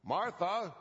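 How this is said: The name is said in an irritated tone. The speaker is annoyed with her.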